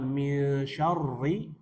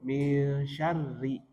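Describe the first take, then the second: First: The r sound is heavy, with the tongue raised. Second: The r sound is light, with the tongue lowered. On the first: The speaker calls it wrong. "Bukan mil syarri" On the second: The speaker calls it right. "tapi mil syarri, tipis"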